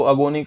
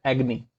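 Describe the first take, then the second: First: अगोनी said a-go-nee, with a long o in the middle; the common mistake, अगोनी as a-go-nee; wrong pronunciation. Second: एग्नी said AG-nee, two short syllables, stress on AG; a short, soft AG-nee for एग्नी; correct pronunciation. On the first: Teacher shows the wrong a-go-nee for अगोनी. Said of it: "जो कि गलत है". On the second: Teacher corrects students: एग्नी as AG-nee. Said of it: "जो कि गलत है, एग्नी". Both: Shown as a demonstration.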